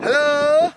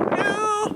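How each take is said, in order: First: Loud high hello, arms-wide big; big booming greeting. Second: Tiny high squeaky hello; small voice. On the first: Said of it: "you say hello in a big voice". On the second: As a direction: shrink the voice right down. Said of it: "You can hello in a small face". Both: Shown as a demonstration.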